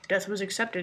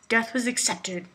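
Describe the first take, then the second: First: It is said in a calm, placid way. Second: It is said in a creepy, forceful way. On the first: "but he said place it, so it's like, mm" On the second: "I feel like I need to be creepy when I say this"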